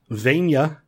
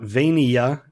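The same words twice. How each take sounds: First: Vania is squeezed into two syllables. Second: Vania is spread over three syllables. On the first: "most people say Pennsylvania with only four syllables"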